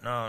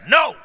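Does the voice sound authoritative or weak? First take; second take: weak; authoritative. First: The word is said softly, without force. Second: The word is said firmly, with commanding force. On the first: The speaker does not really mean it. The speaker calls it wrong. "They don't pay no attention to you" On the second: The speaker means business. The speaker calls it right. "You have to get authority in your voice and say"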